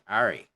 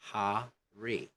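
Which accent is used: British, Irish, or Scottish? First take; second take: Irish; British. First: It is said in an Irish accent. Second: It is said in a British accent. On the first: "or Irish" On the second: "don't blend R with a vowel. Say hurry"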